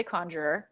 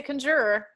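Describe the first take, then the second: First: "conjurer" as KAHN-jer-er, stress up front; preferred pronunciation. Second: "conjurer" as kun-JUR-er, stress in the middle; "conjurer" with a reduced first vowel, kun-JUR-er; rejected pronunciation. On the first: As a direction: open first vowel in "conjurer", stressed. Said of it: "I'd say conjurer". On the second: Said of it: "I wouldn't say conjurer". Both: Shown as a demonstration.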